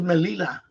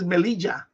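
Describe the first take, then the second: First: The double L sounds like an English L. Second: The double L sounds like an English J. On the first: The speaker calls it wrong. "I thought it was Melilla" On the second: The speaker calls it right. "double L is pronounced as uh, uh like a J in English"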